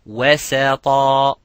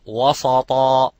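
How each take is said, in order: First: The s sound is light and thin. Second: The s sound is heavy and thick. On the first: The speaker calls it right. "making tarqiq and making istifal of the sin" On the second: The speaker calls it wrong. "and not"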